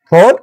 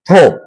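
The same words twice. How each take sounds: First: It is said with an American accent. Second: It is said with a British accent. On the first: "American হচ্ছে যে ফোর" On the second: "British হচ্ছে যে ফোর"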